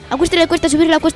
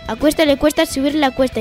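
First: It is spoken at a fast pace. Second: It is spoken at a normal pace. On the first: "A velocidad rápida" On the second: "A velocidad normal"

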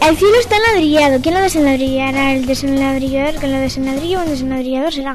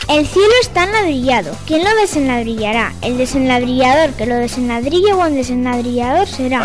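First: It is said at a faster, quicker pace. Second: It is said at a normal, unhurried pace.

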